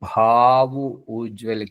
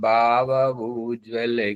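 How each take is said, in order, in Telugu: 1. మొదటి హల్లును గాలి విడుస్తూ పలుకుతారు. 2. మొదటి హల్లును గాలి విడవకుండా పలుకుతారు. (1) "భావ్ ఒత్తు, జటా పలక ఒత్తు పలికితే" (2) "జటా పెట్టనంత మాత్రాన అర్థం ఎలా మారిపోతుంది"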